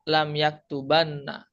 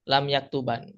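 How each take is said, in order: First: It ends with a heavy, doubled n sound. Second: It ends with a short, light single n. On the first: "Kalau sakila itu berat. ... Jadi ada tasydidnya" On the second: "Khafifah itu ringan"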